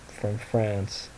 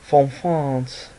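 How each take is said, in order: First: Said in the usual way. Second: Louder, higher put-on French accent; mock French accent. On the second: Shown as a demonstration. Repeating where the gift came from, mock French accent.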